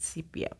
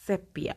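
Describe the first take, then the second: First: Sepia with a long e, SEE-pee-uh. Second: Sepia with a short e, SEP-ee-uh. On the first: Podcaster doubting the shade's name, long-e sepia. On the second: Podcaster reading out shades of yellow, short-e sepia. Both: Shown as a demonstration. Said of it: "or is it sepia".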